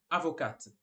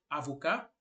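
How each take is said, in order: First: "avocate" with sounded final t; lower, falling "avocate", ending on released t; feminino com t. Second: "avocat" ending in open ka, silent t; lower, rising "avocat" with no final t; masculino sem t. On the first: ("avocate" com t final pronunciado) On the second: ("avocat" terminando em cá, t mudo) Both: Shown as a demonstration.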